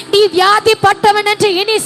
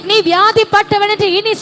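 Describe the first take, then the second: No difference in how they are said.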